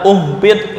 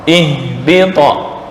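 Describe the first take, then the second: First: The word begins with a u vowel. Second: The word begins with an i vowel. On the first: The speaker calls it wrong. "Nggak boleh dibaca uhbit" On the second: The speaker calls it right. "hamzah wasal dibaca kasroh"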